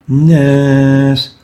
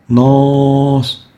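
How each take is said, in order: First: The vowel is light and thin. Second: The vowel is heavy and full-mouthed. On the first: The speaker calls it right. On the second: The speaker calls it wrong.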